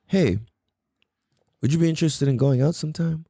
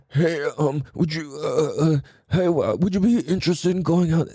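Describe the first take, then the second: First: Relaxed and sure of yourself; calm and confident. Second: Hesitant, halting ask with lots of uh; nervous stammer. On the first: Guy asking his crush out after breathing, calm. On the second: Guy nervously asking his crush out, stammering. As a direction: nervously stumble through asking her out. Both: Shown as a demonstration. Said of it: "just listen to the tone".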